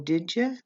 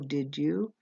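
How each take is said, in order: First: The two words are squished into one. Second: Both words are said fully and separately. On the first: "I might say" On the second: "rather than saying"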